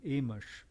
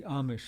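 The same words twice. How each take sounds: First: "Amish" with the first vowel as in "aim"; first syllable of "Amish" rhymes with "day"; long-A pronunciation. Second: "Amish" with an open "ah" first vowel; first syllable of "Amish" like "calm"; broad-A pronunciation. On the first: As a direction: say "Amish" as AY-mish. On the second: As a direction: say "Amish" as AH-mish. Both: Real, not acted. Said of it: "however you pronounce them".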